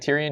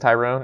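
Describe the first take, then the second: First: The name ends with a short '-ion' sound. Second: The name ends with a long '-one' sound. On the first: This is the usual form of the name. "instead of saying Tyrion" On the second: A streamer jokingly says the name this way. "he says Tyrone"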